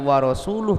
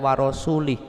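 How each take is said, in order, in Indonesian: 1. Vokal setelah rasul adalah u. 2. Vokal setelah rasul adalah i. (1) "yang tadinya wa rasuluh" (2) "dibaca wa rasulih, u dibaca i"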